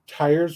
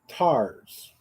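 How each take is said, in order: First: The word is said without a southern drawl. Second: The word is said with a southern drawl.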